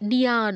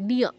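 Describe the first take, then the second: First: The syllable ends with an added a vowel. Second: The syllable ends without an added vowel. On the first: The speaker calls it wrong. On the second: The speaker calls it right.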